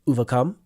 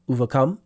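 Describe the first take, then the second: No difference in how they are said.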